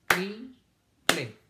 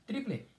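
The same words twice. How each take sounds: First: "Triple" as tri, pause, ple; syllable by syllable. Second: Said in the usual way. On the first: Shown as a demonstration. Teacher counting syllables for children, "Triple" split in two. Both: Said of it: "¿Cuántas sílabas tiene triple?".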